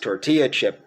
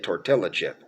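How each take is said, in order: First: The double L is sounded as a Y. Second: The double L is sounded as an L. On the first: The speaker calls it right. "most people could pronounce tortilla chip" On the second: The speaker calls it wrong. "still say tortilla chip, uh, which is humorous"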